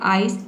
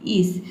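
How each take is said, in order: First: The vowel sounds like 'eye'. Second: The vowel sounds like 'ee'. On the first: "पहले आइस" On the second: "फिर आपने pronounce किया ईस"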